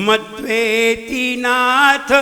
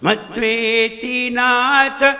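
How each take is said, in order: No difference in how they are said.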